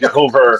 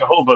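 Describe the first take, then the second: First: The word ends with an added R sound. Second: The word ends in a plain vowel. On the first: "They add an R to it" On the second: "they don't say"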